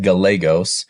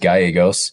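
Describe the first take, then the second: First: The double L is said as a clear L. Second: The double L is not said as an L. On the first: This is how the speaker's family says their name. "The L's not silent in my the way that me and my family pronounce our last name" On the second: This is the standard Spanish way to say the name. "the proper Spanish pronunciation is Gallegos"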